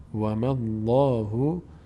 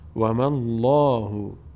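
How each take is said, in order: Both takes have the same delivery.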